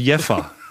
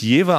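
First: The middle consonant sounds like an f. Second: The middle consonant sounds like a v. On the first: The speaker calls it right. "das V wird wie ein F gesprochen, also Jeffer" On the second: The speaker calls it wrong. "nicht Jever ausgesprochen"

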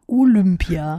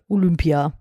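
First: The vowel after L sounds like ü. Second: The vowel after L sounds like u. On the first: "mit Ü" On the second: "dass du es mit U gerade gesagt hast"

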